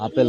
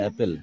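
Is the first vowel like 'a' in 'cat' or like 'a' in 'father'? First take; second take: father; cat. First: The first vowel is an open 'ah' sound. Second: The first vowel is a flat 'a' sound. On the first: The speaker calls it wrong. "আপেল না" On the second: The speaker calls it right.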